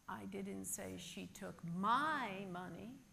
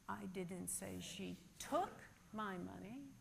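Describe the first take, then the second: First: The stress falls on the word my. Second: The stress falls on the word took. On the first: She may have taken someone else's. "but perhaps she took someone else's" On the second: She may have borrowed it instead. "but perhaps she borrowed it"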